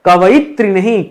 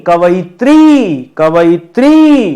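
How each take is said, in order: First: Said in the usual way. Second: कवइत्री said slowly and loudly, long ई at the end. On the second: Shown as a demonstration. Teacher stressing the long ई for the class. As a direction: draw out the ई in कवइत्री. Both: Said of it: "ध्यान दीजिएगा".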